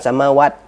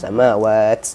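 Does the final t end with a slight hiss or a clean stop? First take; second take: clean stop; slight hiss. First: The final t ends with a clean stop. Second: The final t ends with a slight hiss. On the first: The speaker calls it wrong. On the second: The speaker calls it right. "ada sedikit desisnya tuh"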